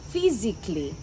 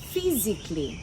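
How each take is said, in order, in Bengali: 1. 'ly'-এর আগে 'al' সিলেবলটি বাদ যায়। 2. 'ly'-এর আগে 'al' সিলেবলটি বাদ যায়।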